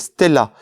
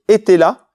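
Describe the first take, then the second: First: The name starts with an S consonant sound. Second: The name starts with an E vowel sound. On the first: The speaker calls it right. "c'est Stella" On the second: The speaker calls it wrong. "ne surtout pas prononcer Etela"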